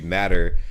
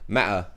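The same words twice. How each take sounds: First: It is said in an American accent. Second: It is said in a British accent. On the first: "in American English it would be matter" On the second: "in uh, British English it would be matter. they they forget their T's"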